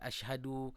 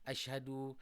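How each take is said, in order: No difference in how they are said.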